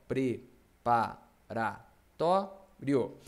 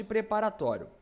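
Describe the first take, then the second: First: "Preparatório" very slow, pre-pa-ra-tó-rio with gaps; syllable by syllable. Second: Said in the usual way. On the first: Shown as a demonstration. Teacher splitting the word for the class, syllable by syllable. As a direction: chop "Preparatório" into separate, measured syllables. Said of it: "vou separar as sílabas". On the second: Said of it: "Mesma coisa de preparatório".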